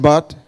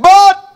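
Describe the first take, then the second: First: Said in the usual way. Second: Very high, loud BUT; BUT shouted high and forcefully; emphatic demonstrated shout. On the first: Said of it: "You just said". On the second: Shown as a demonstration. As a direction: punch BUT out like a defiant retort. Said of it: "I say it in that tone".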